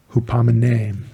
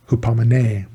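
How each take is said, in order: First: Hupomene with the stress on the final syllable, hupomeNE; stress on last syllable. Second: Hupomene said with the stress on an earlier syllable, not the last; wrong stress. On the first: Preacher correcting himself, Hupomene stressed on the last syllable. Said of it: "the accent is on the last one". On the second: Preacher saying hupomene with the wrong stress. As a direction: hupomene with the stress misplaced before the final syllable. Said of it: "sorry, the accent is on the last one". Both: Shown as a demonstration.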